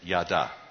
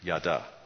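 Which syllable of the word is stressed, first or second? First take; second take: second; second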